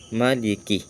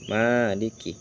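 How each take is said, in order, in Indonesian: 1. Vokal pertama 'ma' pendek. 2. Vokal pertama 'ma' panjang. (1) "Maliki itu pendek ma-nya" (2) "ada juga yang baca panjang"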